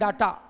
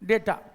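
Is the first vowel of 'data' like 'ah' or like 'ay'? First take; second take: ah; ay. First: The first vowel sounds like 'ah'. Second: The first vowel sounds like 'ay'. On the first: The speaker calls it wrong. "बहुत सारे लोग इसको pronounce करते हैं डाटा" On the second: The speaker calls it right. "No this is डेटा"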